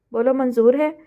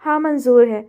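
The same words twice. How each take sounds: First: Questioning rise on the final है; challenging question. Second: Firm, louder acceptance falling on हाँ; a strong, resolute yes. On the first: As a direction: put it as a challenge, rising on है. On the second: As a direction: agree decisively, hitting हाँ hard. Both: A narrator's reading. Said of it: "मजबूत लहजे में कहा".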